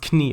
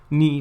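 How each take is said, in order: First: The word starts with a k sound. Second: The word starts with an n sound. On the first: This is the original, older pronunciation. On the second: This is the modern pronunciation.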